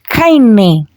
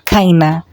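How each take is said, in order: First: The word ends in a clear 'e' sound. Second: The word ends in a relaxed 'a' sound. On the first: "I'll pronounce it as kaine for easy understanding" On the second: "you are supposed to pronounce it as kaina"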